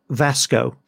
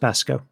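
First: The name begins with a V sound. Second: The name begins with a B sound. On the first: The speaker calls it wrong. "Vasco should be pronounced" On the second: The speaker calls it right. "should be pronounced Basco"

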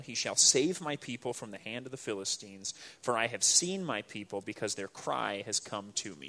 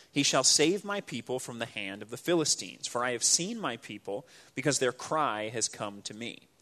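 No difference in how they are said.

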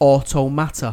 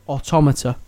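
First: It is said the game's own way. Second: It is said the usual English way. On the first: This is how the game's makers say it. "But they pronounce it Automata" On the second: This is how the word would normally be said. "naturally, that should be Automata"

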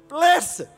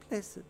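First: It is said strongly, with depth. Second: It is said lightly, without depth.

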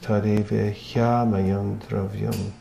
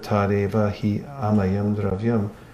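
First: The 'hy' glides straight into the following vowel. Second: The 'hi' is sounded as an extra syllable. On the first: The speaker calls it right. "you don't have to pronounce the he separately" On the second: The speaker calls it wrong. "it adds an extra syllable that's not actually there"

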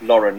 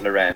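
First: It is pronounced like the first name Lauren. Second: It is pronounced like the surname Loren. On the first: The speaker calls it right. "It's Ralph Lauren, like the name Lauren" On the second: The speaker calls it wrong. "not Sophia Loren, like Sophia Loren"

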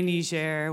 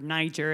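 First: The name is said with a non-American pronunciation. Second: The name is said with an American pronunciation.

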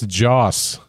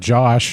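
First: The name ends with an 's' sound. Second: The name ends with a 'sh' sound. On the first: The speaker calls it right. "It's Joss" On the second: The speaker calls it wrong. "It's not Josh"

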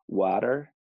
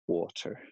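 First: It is said with an American accent. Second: It is said with an English accent. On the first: "instead of saying water" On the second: "they might say water"

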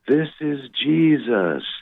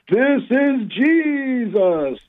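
First: It is said at a quiet volume. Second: It is said very loudly.

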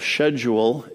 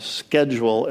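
First: It is said with a Canadian pronunciation. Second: It is said with an American pronunciation.

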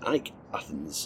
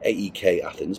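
First: AEK is said as one word, like Ike. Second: AEK is spelled out as three separate letters. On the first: This is the current way of saying the name. "I think Ike Athens is a perfectly legitimate way of saying it" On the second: This is the older way of saying the name. "I'm sure it used to be AEK Athens"

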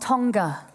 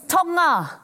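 First: The G is sounded as a hard G. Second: The G is silent, with only a nasal sound. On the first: The speaker calls it wrong. "not Tonga" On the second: The speaker calls it right. "It's Tonga, The G is silent in Polynesian languages"

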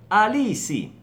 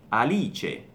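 First: It is said the Brazilian Portuguese way, like 'Alisi'. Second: It is said the Italian way, ending in '-che'. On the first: "Alisi, che in italiano diventa Alice" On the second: "in italiano diventa Alice"

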